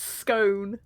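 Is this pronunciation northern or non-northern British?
non-northern. It uses the non-northern vowel. The speaker calls it right. "It's scone"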